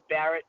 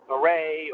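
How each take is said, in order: First: The name is pronounced like an English word. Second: The name is pronounced like a French word. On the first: The speaker calls it right. "but it, it's Barrett" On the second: The speaker calls it wrong. "a lot of people that try to pronounce it like maybe it's a French word"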